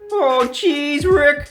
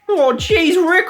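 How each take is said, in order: First: It is said in an American accent. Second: It is said in an Australian accent. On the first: The speaker calls it right. "they're both American" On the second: The speaker calls it wrong. "don't speak with an Australian accent, or you'd be like this"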